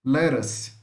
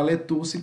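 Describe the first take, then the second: First: Lettuce as "LE-rus", tapped; TT as quick R. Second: Letuce as "le-TOO-see"; wrong spelled-out lettuce. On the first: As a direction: say lettuce with a flicked R for TT. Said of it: "como se fosse um R". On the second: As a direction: hit a hard T in letuce, final vowel sounded. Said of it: "tá errado". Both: Shown as a demonstration.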